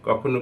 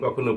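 Both takes have the same delivery.

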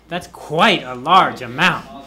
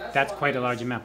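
First: It is said with more energy and emphasis. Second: It is said with moderate, plainer energy. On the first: "But you could have more" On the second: "Here's good"

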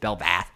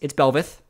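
First: The second syllable sounds like 'vath'. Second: The second syllable sounds like 'veth'. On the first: The speaker calls it wrong. "I was actually saying Belvath a lot during one of the casts" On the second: The speaker calls it right. "It's Belveth"

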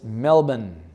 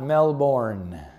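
First: The ending is short and reduced, Australian style. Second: The ending is said fully, as spelled.

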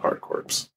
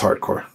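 First: The last word sounds like corpse, P and S pronounced. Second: The last word sounds like core, P and S silent. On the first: The speaker calls it wrong. "It's not hard corpse. You don't have to pronounce the P or the S" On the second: The speaker calls it right. "It's hardcore"

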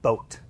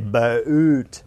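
First: The vowel is short and single. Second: The vowel is a long two-part glide. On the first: "Whereas American is very short and quick" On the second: "Australians tend to elongate a lot with their vowels, and certainly they create what's called diphthongs"

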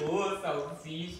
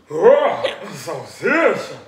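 First: It is said in his normal voice. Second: It is said in a strange Scooby-Doo voice.

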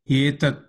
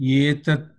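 Both takes have the same delivery.

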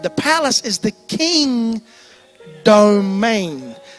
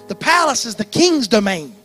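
First: It is said slowly and deliberately. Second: It is said at a normal speed.

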